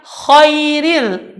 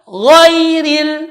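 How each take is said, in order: First: The word starts with a voiceless kh sound. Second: The word starts with a voiced gh sound. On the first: The speaker calls it wrong. "Dia membacanya khairil. Ini salah" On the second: The speaker calls it right. "yang benar adalah huruf gha"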